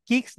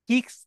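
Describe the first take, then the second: Both takes have the same delivery.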